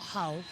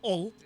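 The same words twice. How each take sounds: First: The word starts with an H sound. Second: The word starts without an H sound. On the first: This is how outsiders say it. The speaker calls it wrong. "not Hull" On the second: This is how locals say it. The speaker calls it right. "you don't pronounce the H if you're from Hull"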